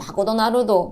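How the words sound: It is said with a Japanese accent. "일본에서는"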